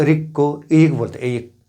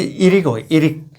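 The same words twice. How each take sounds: First: इरिक said ee-yik, no r; dropping the r. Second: इरिक with a clear r; with the r sound. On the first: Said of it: "र नहीं बोलता". (र छोड़कर इयिक) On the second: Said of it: "तो इरिक को र". (र के साथ इरिक) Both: Shown as a demonstration.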